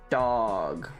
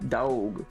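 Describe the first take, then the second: First: It is said with a Californian accent. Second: It is said with a Southern accent.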